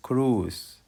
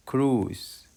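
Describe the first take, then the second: No difference in how they are said.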